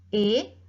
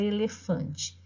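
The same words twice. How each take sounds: First: E-le-fan-te, each syllable separated and spoken apart; split into syllables. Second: Said in the usual way. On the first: Shown as a demonstration. Teacher sounding out E-le-fan-te for the class, syllable by syllable.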